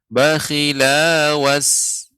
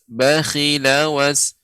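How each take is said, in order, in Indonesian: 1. Vokal setelah L itu panjang. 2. Vokal setelah L itu pendek. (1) "sehingga lam menjadi pan panjang" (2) "dibaca dengan pendek, maka caranya dibaca dengan dis- disambung dengan huruf setelahnya"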